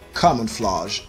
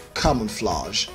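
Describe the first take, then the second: First: It is said in a British accent. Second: The same.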